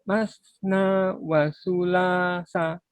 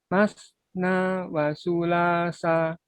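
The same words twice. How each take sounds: The two takes are said the same way.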